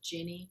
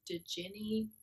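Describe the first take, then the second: First: The word starts with no D sound. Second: The word starts with a sounded D. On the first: "Maybe the D is silent" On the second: "It's like Djinni"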